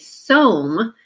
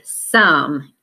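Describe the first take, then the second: First: The vowel is a long O sound. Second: The vowel is a short U sound. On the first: The speaker calls it wrong. "you don't say some" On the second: The speaker calls it right. "just fix it and say some instead"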